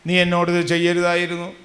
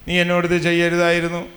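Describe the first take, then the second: No difference in how they are said.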